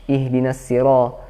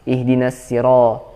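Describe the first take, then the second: No difference in how they are said.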